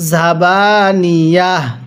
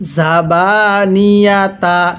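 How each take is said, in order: First: The word ends with a soft h sound. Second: The word ends with a full ta syllable. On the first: The reader stops at this word. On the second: The reading continues without stopping.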